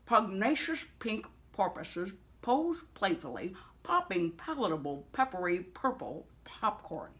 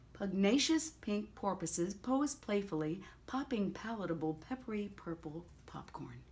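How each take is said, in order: First: It is spoken in a put-on character voice. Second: It is spoken in the speaker's own natural voice. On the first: "Now we're gonna do it with the aural voice" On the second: "I'm gonna do it as in a normal voice"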